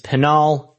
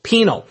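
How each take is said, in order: First: The name does not sound like penal. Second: The name sounds like the word penal. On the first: The speaker calls it right. "It's Pinal County" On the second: The speaker calls it wrong. "it's not pronounced penal. It's not a penal colony"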